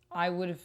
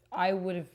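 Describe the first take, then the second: No difference in how they are said.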